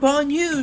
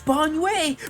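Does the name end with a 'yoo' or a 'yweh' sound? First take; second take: yoo; yweh. First: The name ends with a 'yoo' sound. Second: The name ends with a 'yweh' sound. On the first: This is how people on live streams said it. The speaker calls it wrong. "people were saying Banyu" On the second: This is the name as the character says it. The speaker calls it right. "now his name is Banyue"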